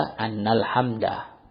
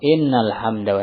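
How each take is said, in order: First: The first word begins with an a vowel. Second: The first word begins with an i vowel. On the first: It is read as a single noun. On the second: It is read as a full clause.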